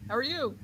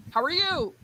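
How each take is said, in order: First: Softer, fainter echo of a call. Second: High-pitched call into the distance; calling for an echo. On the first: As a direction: bounce it back quietly. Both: Acted. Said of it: "the Echo scene".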